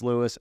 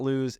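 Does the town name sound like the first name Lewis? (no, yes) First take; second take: yes; no. First: The name sounds just like Lewis. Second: The name does not sound like Lewis. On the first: The speaker calls it right. "Just like your Uncle Lewis or the name Lewis" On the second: The speaker calls it wrong. "It's not Lewes"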